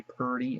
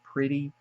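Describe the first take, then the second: First: Purty with an r-colored first vowel; drawled purty; country purty. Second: Said in the usual way. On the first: Shown as a demonstration. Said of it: "people say purty". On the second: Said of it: "instead of pretty".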